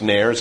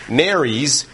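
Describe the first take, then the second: First: The word is said without a separate plural ending. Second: The word ends in a separate plural syllable. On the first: The speaker calls it wrong. "Looks like it's pronounced nares, and I hear people say that all the time" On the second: The speaker calls it right. "but it's nares. And the reason it's nares is because it's a plural"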